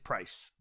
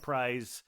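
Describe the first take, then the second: First: The name ends with a hissing s sound. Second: The name ends with a buzzing z sound. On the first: This is how locals actually say it. The speaker calls it right. "but it, it's price" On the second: This is how the spelling looks it should sound. The speaker calls it wrong. "it looks to me like prize"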